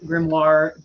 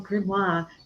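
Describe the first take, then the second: First: It is said plainly, with an English R sound. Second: It is said in a snooty, French-sounding way. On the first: The speaker calls it right. "I landed on grimoire" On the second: The speaker calls it wrong. "it feels a little snooty when I'm like, oh"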